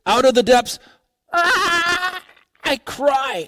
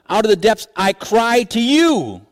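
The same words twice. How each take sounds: First: High, strained cry out of the depths; squeezed cry. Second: Desperate squawk. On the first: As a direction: squeeze the words out like a desperate squawk. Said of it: "The depths squeeze us". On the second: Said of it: "He squawks toward God". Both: Retold or imitated.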